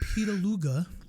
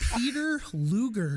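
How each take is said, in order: First: The name is run together like one word. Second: The name is said carefully as two words. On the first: Someone else's way of saying the name. "he's pronouncing it Petaluga" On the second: The name as written on the bottle. "I read the whitest name I've ever seen on a bottle"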